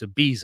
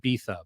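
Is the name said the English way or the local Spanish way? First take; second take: English; local Spanish. First: The name is said with an ordinary English pronunciation. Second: The name is said with the local Spanish pronunciation. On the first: This is the speaker's preferred way to say it. "but I don't like pronouncing it like that. So it's" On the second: This is how the islanders say it. "or as they call it"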